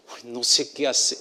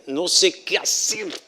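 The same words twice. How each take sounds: First: Said in the usual way. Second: "No sé qué hacer" said slow, higher, each word spaced; slow emphatic "No sé qué hacer", pitched up; slow, deliberate. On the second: Shown as a demonstration. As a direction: draw out "No sé qué hacer" with weight on qué.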